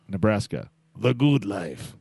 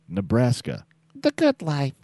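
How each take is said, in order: First: It is said in a rough, tough voice. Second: It is said in a smoother voice. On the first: "It's got that rough, we work in the fields kind of" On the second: "I think we should say that in a certain voice"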